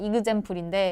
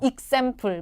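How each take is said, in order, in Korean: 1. 가운데 's' 소리는 뭉개지고 삼켜집니다. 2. 가운데 's' 소리는 분명하게 발음됩니다. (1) "원래 그냥 이그젬플인데" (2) "익샘플 뭐 이런 식으로"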